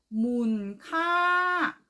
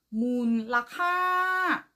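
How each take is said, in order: First: The word is said with two syllables. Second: The word is said with three syllables. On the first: "두 번째 발음 문카" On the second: "첫 번째 발음 문라카"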